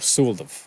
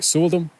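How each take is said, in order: First: The name ends with a V sound. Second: The name ends with an M sound. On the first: "or a V" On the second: "that M at the end can be an M"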